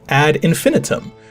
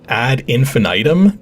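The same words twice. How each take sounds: First: All the i vowels are said short. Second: One of the i vowels is said long. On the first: The speaker calls it right. "which has three short I's" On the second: The speaker calls it wrong. "not two short I's and a long one"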